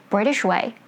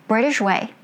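Both takes have the same delivery.

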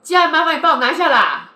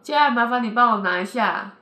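First: It is said heavily and impatiently. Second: It is said lightly and calmly.

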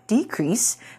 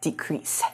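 First: The stress is on the first syllable. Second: The stress is on the second syllable. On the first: It is used as a noun. "名词我们念作decrease" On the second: It is used as a verb. "如果是动词的话，我们念作decrease"

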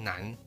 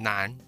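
First: The final n is fully released by the tongue. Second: The final n is cut short and unreleased. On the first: The speaker calls it right. "比较讲究的发音去发的话，你会发现南你的牙齿会弹回来" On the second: The speaker calls it wrong. "如果只是变成南，就发音就不是那么准确"

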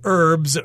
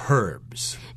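First: American accent with a silent H. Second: British accent with the H pronounced.

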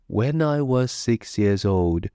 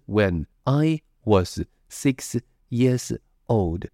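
First: The words run together smoothly without breaks. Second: Each word is said separately, one at a time. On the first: The speaker calls it right. "全部都是粘在一起的" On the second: The speaker calls it wrong. "我们的第一句话不是"

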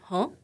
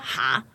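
First: It is said with the mouth barely open. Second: It is said with the mouth wide open.

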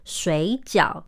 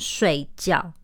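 First: Both syllables have a low dipping tone. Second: Both syllables have a sharp falling tone. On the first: It means dumplings. "水饺两个字都是三声" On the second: It means to sleep. "如果你把这两个字变成四声"

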